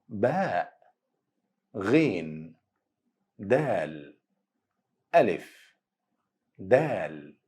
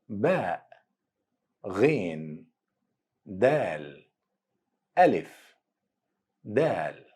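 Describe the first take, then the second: No difference in how they are said.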